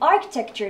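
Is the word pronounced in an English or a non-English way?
English. The word is pronounced the way English speakers say it. The speaker calls it right. "English speakers say architecture"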